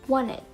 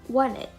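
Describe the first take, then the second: No difference in how they are said.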